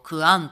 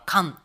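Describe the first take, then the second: First: The word is said in full as ku-an. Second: The u sound is dropped, giving kan. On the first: This is the form used in other areas. "他のところは例えば私いるっていうことをクアンとか言ってる" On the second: This is the form used in the Saru dialect. "猿方言はカンとかって言って言ううの音を省略しちゃったりする"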